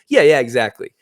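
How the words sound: It sounds eager and quick, overly enthusiastic. The tone does not match the other person's. The speaker calls it wrong.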